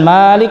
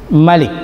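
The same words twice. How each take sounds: First: The vowel after the m is held long. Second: The vowel after the m is kept short.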